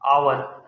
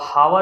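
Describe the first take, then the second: First: The word starts with a vowel, no h. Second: The word starts with an audible h sound. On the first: The speaker calls it right. "An आवर लिखा हुआ है" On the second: The speaker calls it wrong. "अब हावर अगर हम पढ़ेंगे, तो गलत कर सकते हैं"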